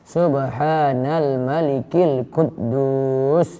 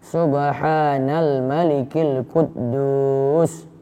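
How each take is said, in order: Both takes have the same delivery.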